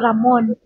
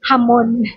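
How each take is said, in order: First: The name begins with an R sound. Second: The name begins with an H sound. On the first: "yung pangalan mo" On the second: "pag i-pronounce dito sa Brazil, magiging"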